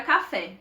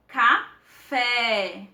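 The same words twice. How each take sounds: First: Said in the usual way. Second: "Café" stretched out, the "fé" held long; prolonged stressed syllable. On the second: Shown as a demonstration. Teacher showing students the tonic syllable, "Café" prolonged on "fé". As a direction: split "Café" slowly, lingering on "fé". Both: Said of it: "é a gente prolongar a nossa pronúncia".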